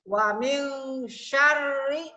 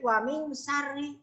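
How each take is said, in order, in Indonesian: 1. Kata terakhir dimulai dengan bunyi 'sh'. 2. Kata terakhir dimulai dengan bunyi 's'. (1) "sin yang ada titiknya di atas dibacanya besar" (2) "Yang nggak ada titiknya, ya dibacanya kecil"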